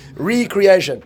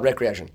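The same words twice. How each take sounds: First: The word starts with a long 'ree' sound. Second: The word starts with a short 'rec' sound. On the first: Being created again. The speaker calls it right. "There's a hyphen in there" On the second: Leisure or amusement. The speaker calls it wrong. "Not recreation"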